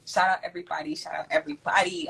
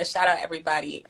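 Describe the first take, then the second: First: A hushed, breathy Shout out everybody; whispered. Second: Said in the usual way. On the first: Shown as a demonstration. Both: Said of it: "repeated as whisper".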